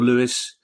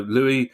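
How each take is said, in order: First: The name ends with a pronounced s sound. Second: The name ends in an ee sound, s silent. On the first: "I've got another one who pronounces it Lewis" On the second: "which I would pronounce Louis"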